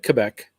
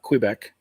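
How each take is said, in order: First: It is said the military phonetic-alphabet way. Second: It is said another, non-military way. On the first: "because in the military, you know, Q when you went through the letters" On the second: "not Quebec"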